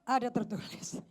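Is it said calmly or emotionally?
calmly. It is said quietly with no emotion.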